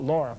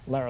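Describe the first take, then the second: First: The first vowel sounds like 'law'. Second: The first vowel sounds like 'car'. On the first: The speaker calls it wrong. "I always call it Laura" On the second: The speaker calls it right. "but it's Lara"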